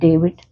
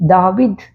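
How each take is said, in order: First: The first vowel is an 'ay' sound. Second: The first vowel is a long 'aa'. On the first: This is the English reading. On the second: This is the Malayalam reading.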